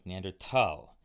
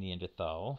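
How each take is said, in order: First: The word is said with a 't' sound in 'thal'. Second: The word is said with a 'th' sound in 'thal'. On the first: "it was probably drilled into you that the quote correct term is Neanderthal" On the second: "If you're saying Neanderthal with a TH"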